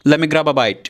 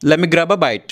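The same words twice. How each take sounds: Both takes have the same delivery.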